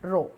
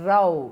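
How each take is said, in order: First: The vowel rhymes with 'road', like 'oh'. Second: The vowel rhymes with 'cow', like 'ow'. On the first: A line of things or people. "It rhymes with റോഡ്" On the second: A quarrel or argument. "റോ അല്ല, റൗ എന്ന് പറയണം"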